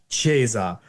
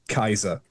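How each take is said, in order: First: It is said with a church Latin pronunciation. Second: It is said with a classical Latin pronunciation. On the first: "in the church we'd say" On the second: "A classical Latinist would would say"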